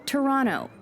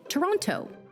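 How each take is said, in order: First: The second T sound is dropped entirely. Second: The second T sound is clearly pronounced. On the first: The speaker is a local of the city. "They don't pronounce that second T" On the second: The speaker is a visitor to the city. "A surefire way to let on that you're a tourist"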